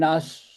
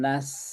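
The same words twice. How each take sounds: First: The syllable is sounded heavy and thick. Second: The syllable is sounded light and thin. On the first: The speaker calls it wrong. "bukan nas" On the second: The speaker calls it right. "tapi ringan"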